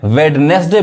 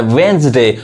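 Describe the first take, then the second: First: वेडनेसडे as "wed-nes-day"; वेडनेसडे misread in three syllables; wrong pronunciation. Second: वेडनेसडे as "wens-day"; वेडनेसडे in two syllables, "wenz-de"; silent D. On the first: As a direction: sound the first d in वेडनेसडे. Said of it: "गलत लोग पढ़ते हैं". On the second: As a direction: say वेडनेसडे without the first d. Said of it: "डी नहीं पढ़ाएगा". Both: Shown as a demonstration.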